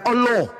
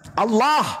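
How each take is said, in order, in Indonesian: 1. Vokalnya diucapkan sebagai 'o'. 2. Vokalnya diucapkan sebagai 'a' yang jelas.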